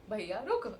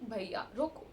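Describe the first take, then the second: First: It is said politely and softly. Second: It is said politely and softly.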